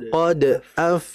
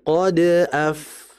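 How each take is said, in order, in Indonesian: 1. Ada jeda setelah d yang memantul. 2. D yang memantul langsung menyambung ke af. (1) "Jadi kayak ada jeda" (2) "Harusnya kan langsung qad af"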